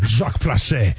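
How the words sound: The first name is said the French way. "Maybe I should do this in a French accent"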